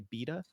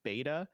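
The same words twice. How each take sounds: First: The word is said in a British accent. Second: The word is said in an American accent.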